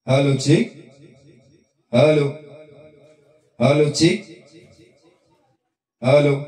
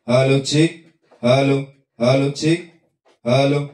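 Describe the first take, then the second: First: The voice has repeating delay echoes. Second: The voice is plain, with no added effect.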